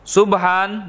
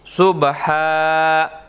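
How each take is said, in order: First: The word ends with an n sound. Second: The word ends with a long vowel. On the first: This is how it is written. "Subhan berubah menjadi subha" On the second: This is how it is read when stopping. "Subhan berubah menjadi subha"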